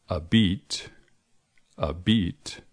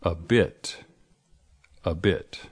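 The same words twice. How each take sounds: First: "beat" with a long, tense ee. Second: "bit" with a short, lax i. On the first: Teacher offering quiz choice A, long ee in beat. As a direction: say beat with ee, not short i. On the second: Teacher offering quiz choice B, short i in bit. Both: Shown as a demonstration. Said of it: "words that sound very similar".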